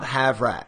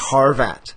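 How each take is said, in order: First: The r sound comes right after the v. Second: The r sound comes right after the first vowel. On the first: The speaker calls it wrong. "Not Havrat" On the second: The speaker calls it right. "It's Harvat"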